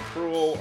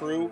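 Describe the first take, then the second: First: The name ends with an audible L sound. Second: The name ends in a plain vowel sound. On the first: The speaker calls it wrong. "weren't good at pronouncing it either. So I guess you could call you the Prule" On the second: The speaker calls it right. "the L and X are silent, and so it's pronounced Prue"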